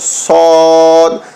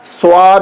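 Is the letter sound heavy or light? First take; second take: heavy; light. First: The sound is heavy and drawn out. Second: The sound is light and thin. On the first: The speaker calls it right. "इसको भी मोटा पढ़ना है" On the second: The speaker calls it wrong. "स्वाद नहीं बोलना है"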